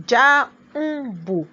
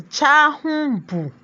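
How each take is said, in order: First: "jáhùnbù" slowly split, the middle n a separate beat; syllables drawn out. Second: Said in the usual way. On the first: Shown as a demonstration. Teacher showing the syllabic n, "jáhùnbù" slowly broken up. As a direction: sound out "jáhùnbù" in three slow, detached syllables. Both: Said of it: "The n there is a syllable".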